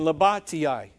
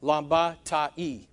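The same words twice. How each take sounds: First: "labatiai" ending in tee-eye; mistaken pronunciation. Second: "Lambatai" sounded out slowly, ending ta-ee; corrected Greek pronunciation. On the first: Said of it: "is the way it should be". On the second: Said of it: "Or I E is the way it should be". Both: Shown as a demonstration.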